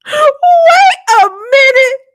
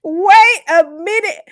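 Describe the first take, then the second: First: Very high, loud and drawn out; stunned outburst. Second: Slow and high, less squealed; stunned, regaining control. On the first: Host halting the show over gossip, high squealed shock. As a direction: squeal it slowly in sheer disbelief. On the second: Host steadying herself after gossip, drawn-out astonishment. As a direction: stretch each word in lingering disbelief. Repeats it, coming down. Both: Real, not acted.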